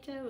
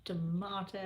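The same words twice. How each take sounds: First: Tomato as "tuh-MAY-toe"; tomato rhyming with potato; tomato with long a. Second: Tomato as "tuh-MAH-toe"; tomato with broad a. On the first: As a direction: say tomato the American way, middle like "may". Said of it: "and I say". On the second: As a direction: stretch tomato with an "ah" in the middle. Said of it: "It's like you say tomato". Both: Shown as a demonstration.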